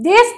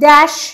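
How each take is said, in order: First: The vowel is a closed e sound. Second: The vowel is an open, wide e sound. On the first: "আমরা সংবৃত বলছি" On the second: "সংবৃত এ এখানে বিস্তৃত বিবৃত এ রূপে উচ্চারিত"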